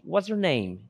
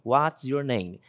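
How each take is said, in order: First: The words run together into one stream. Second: Each word is said clearly and separately. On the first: It is the informal, everyday way to ask. "Repare que a pronúncia é diferente, emenda tudo" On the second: It is the formal, textbook way to ask. "Essa é a estrutura da pergunta mesmo"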